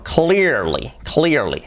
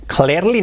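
First: "clearly" as KLEER-lee, drawn out; careful repeated "clearly"; correct pronunciation. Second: "Clearly" as KLAIR-lee; higher-pitched mistaken "Clearly" with E vowel; wrong pronunciation. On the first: Shown as a demonstration. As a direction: model "clearly" with EE and English R. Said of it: "Esa palabra hay que trabajarla". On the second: Retold or imitated. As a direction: imitate the learner's "Clearly", Spanish E. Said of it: "Clearly no".

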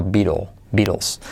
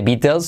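First: Beatle, Beatles as "bi-rol, bi-rols", low; soft R version. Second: Beatles as "BI-tels", t sounded; hard T version. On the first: Teacher correcting learners, Beatles as "BI-rols". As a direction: say Beatles with a tapped r for the t. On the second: Teacher showing what not to say, Beatles as "bi-tels". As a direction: say Beatles with a clear T, rising. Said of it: "No se dice Beatles". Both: Shown as a demonstration.

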